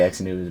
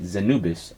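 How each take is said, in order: First: The name begins with an eks sound. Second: The name begins with a z sound. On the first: The speaker calls it wrong. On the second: The speaker calls it right.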